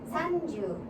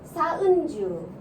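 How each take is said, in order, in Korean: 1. n 소리는 짧게 끊어요. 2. n 소리는 한 박자만큼 길게 해요. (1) "우리식 생각으로 해서 산주, 연주, 너무 산, 연 이렇게 짧게 하지 마시고" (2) "좀 길게 해주세요... 원래 발음이 이거예요"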